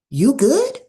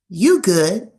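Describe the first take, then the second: First: It is said in a worried, caring tone. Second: It is said in a blunt, direct tone. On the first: The speaker is checking on someone's wellbeing. "that will communicate concern" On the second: The conversation is over. "which is more direct. That will communicate the end of a conversation"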